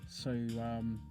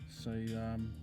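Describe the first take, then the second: No difference in how they are said.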